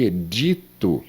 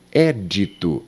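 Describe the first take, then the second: First: "edito" stressed on DI; stress on middle syllable. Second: "Édito" stressed on the open É; stress on first syllable. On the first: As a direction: say "edito" as the verb, e-DI-to. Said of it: "o verbo editar". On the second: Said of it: "é um substantivo e edito seria". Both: Shown as a demonstration.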